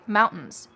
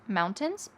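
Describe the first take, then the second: First: The middle of the word is reduced and swallowed. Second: Every sound in the word is said clearly. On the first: "you're gonna hear people say" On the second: "say this word clearly"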